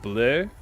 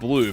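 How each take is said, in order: First: It has a French-sounding vowel. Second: It has an English-sounding vowel. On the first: The speaker calls it right. "but it's like bleu" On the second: The speaker calls it wrong. "I think I said blue"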